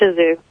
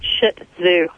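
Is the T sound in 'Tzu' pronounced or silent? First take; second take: silent; pronounced. First: The T sound in Tzu is silent. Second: The T sound in Tzu is pronounced. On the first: The speaker calls it right. "The T is silent" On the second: The speaker calls it wrong. "It's not Shih Tzu"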